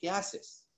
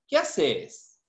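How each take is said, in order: First: It is said in a neutral accent. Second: It is said in an Argentine accent.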